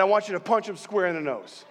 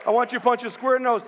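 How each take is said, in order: First: Said in the usual way. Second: Fast, higher-pitched fired-up coaching; worked-up dad egging on his son, rushed; excited retold dad. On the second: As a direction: re-enact a dad getting carried away, quick and high. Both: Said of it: "as I'm getting all excited".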